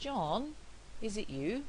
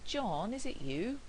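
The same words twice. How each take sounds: First: There is a pause after John. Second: There is no pause after John. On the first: "With a pause" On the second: "With no pause"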